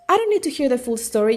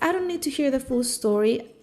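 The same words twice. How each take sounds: First: The tone sounds upset and impatient. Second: The tone sounds patient and kind. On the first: The original message is delivered as it was said. "an upset, uh, impatient doctor" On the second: The message is made to sound nicer than it was. "a very patient and kind interpreter"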